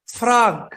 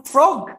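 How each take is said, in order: First: "frog" with an open ah, like frahg; American-style "frog", open vowel. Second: "frog" with a round Indonesian O; learner's faulty "frog", round O; O-vowel frog. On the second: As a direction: say "frog" as frohg, as it is spelled. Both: Shown as a demonstration. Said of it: "kodok bukan frog".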